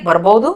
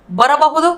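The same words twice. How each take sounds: First: ಬರಬಹುದು contracted to "barbaudu"; colloquial short form. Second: Said in the usual way. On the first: Shown as a demonstration. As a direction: drop the middle a and soften away the h in ಬರಬಹುದು. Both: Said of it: "इसको बोलेंगे".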